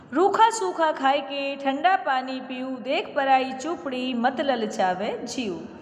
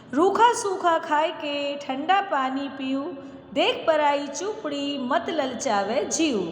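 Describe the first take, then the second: No difference in how they are said.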